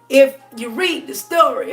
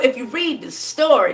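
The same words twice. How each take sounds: First: It is said in a preaching church voice. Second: It is said in a plain conversational voice.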